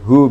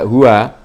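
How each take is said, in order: First: The w is closed with no vowel after it. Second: The w is followed by an a vowel. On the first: The speaker calls it right. "wawunya disukun, hu begitu" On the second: The speaker calls it wrong. "tidak huwa"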